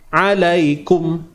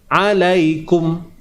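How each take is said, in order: The two takes are said the same way.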